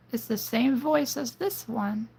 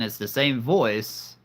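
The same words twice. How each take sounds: First: Very high, female villain voice; villainess. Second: Said in the usual way. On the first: Shown as a demonstration. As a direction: put on a high-pitched villainess. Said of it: "is the villainess". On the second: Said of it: "So again".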